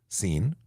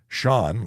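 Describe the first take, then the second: First: The name starts with an 's' sound. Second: The name starts with an 'sh' sound. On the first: The speaker calls it wrong. "I get Scene" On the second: The speaker calls it right. "like Sean Connery, the legend, should be easy"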